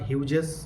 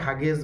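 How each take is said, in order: First: It has two syllables with an 'ew' vowel. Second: It has two syllables with an 'a' vowel. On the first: "অনেকে হাগেস বা হিউজেস সব উচ্চারণ করতে পারে" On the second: "অনেকে হাগেস বা হিউজেস সব উচ্চারণ করতে পারে"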